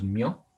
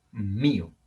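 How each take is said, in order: First: Mio said as one gliding syllable, no stress on i; wrong stress. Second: Mío slow with the stress on í, MÍ-o; correct stress. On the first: Teacher showing the wrong way to say mio. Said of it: "no decimos mio". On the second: Teacher modelling the stressed í in mío. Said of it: "Decimos mío". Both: Shown as a demonstration.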